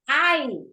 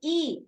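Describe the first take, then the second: First: The vowel sounds like "eye". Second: The vowel sounds like "ee". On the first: The speaker calls it right. "yes, when talking about yourself" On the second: The speaker calls it wrong. "you don't say E"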